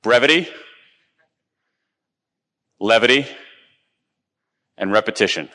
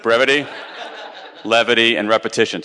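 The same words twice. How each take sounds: First: Each word set apart with long pauses; brevity, levity, repetition, spaced and weighed; three key words. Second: Quicker run-through with a laugh; Brevity, levity, and repetition, laughing through it; said again. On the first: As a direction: give each word room to land. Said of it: "They are". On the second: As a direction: repeat the list lightly, half laughing. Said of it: "let me say that one more time". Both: Shown as a demonstration.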